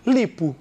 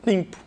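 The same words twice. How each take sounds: First: LIPO with a pure, un-nasalised I; oral I. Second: LIMPO with a nasalised I; nasal I. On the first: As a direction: say LIPO, no nose in the vowel. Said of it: "Se você tira esse M". ("lipo" com I oral) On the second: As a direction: say LIMPO, first vowel through the nose. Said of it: "Uma coisa seria som nasal". ("limpo" com I nasal) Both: Shown as a demonstration.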